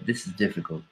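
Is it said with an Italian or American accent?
American. It is said lightly, with an American accent.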